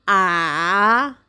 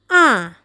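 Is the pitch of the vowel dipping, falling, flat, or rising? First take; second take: dipping; falling. First: The pitch falls, then rises again. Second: The pitch falls from high. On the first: "dari tinggi turun kemudian naik kembali" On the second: "nadanya dari tinggi turun"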